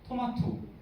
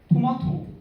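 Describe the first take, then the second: First: The word starts on a high pitch. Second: The word starts on a low pitch. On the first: The speaker calls it right. "자연스럽죠" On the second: The speaker calls it wrong. "이상하죠"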